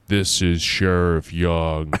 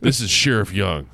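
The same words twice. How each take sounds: First: Slow, low sheriff's words; said slowly. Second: Said in the usual way. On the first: Acted. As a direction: draw it out calmly and low. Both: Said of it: "he said slowly".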